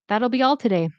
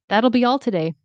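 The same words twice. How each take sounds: No difference in how they are said.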